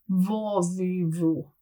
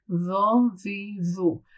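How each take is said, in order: First: "vo" said with lips rounded forward; lips rolled up. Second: "vo" from the throat with lips relaxed; lips not rounded. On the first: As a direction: roll the lips up on "vo". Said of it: "Now with rolling my lips up". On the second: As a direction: keep the lips flat on "vo". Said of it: "without rolling my lips". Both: Shown as a demonstration.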